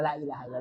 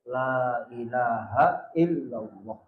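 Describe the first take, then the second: First: The phrase is said quickly without lengthening. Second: The phrase is said slowly with drawn-out sounds. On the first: The speaker calls it wrong. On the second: The speaker calls it right. "Makanya kan ditarik itu"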